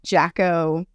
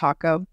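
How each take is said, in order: First: The word begins with a J sound. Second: The word begins with an H sound. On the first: The speaker calls it wrong. "mispronounce as Yako or Jacko" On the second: The speaker calls it right. "but it's pronounced Hako"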